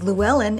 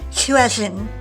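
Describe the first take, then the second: First: It begins with a plain L sound. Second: It begins with a breathy, hissing L sound. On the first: This is how it is said in America. "we pronounce as Llewellyn in America" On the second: This is how it is said in Wales. "is pronounced Llywelyn in Wales"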